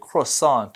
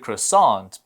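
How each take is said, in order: First: It is said with a French-style European pronunciation. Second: It is said with an American pronunciation. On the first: "I do hear more Europeans say croissant or have a different stress" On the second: "in the U S we always hear croissant"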